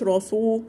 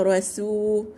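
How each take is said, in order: First: "رسو" with s darkened towards ص; wrong heavy seen. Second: "رسو" with heavy r, thin s; light seen. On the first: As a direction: turn the s of "رسو" emphatic. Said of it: "ما تقولش رسو". (نطق "رسو" بسين مفخمة كالصاد) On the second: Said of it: "ترققي السين". (نطق "رسو" بترقيق السين) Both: Shown as a demonstration.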